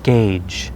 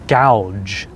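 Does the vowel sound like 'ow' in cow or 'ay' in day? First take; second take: ay; ow. First: The vowel sounds like 'ay' in day. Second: The vowel sounds like 'ow' in cow. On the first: The speaker calls it right. "the correct pronunciation is gauge" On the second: The speaker calls it wrong. "it looks like gouge"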